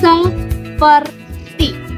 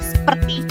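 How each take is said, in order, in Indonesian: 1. Vokal pertama e diucapkan. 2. Vokal pertama e dihilangkan. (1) "kata baku" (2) "terdapat penghilangan fonem e"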